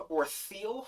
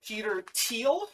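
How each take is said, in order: First: Thiel said like "theel", rising; unsure "theel" reading of Thiel. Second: Thiel said like "teal", pitched up; unsure "teal" reading of Thiel; Thiel with hard T. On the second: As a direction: say Thiel with a T sound, questioning. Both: Real, not acted. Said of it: "not sure how you would pronounce that".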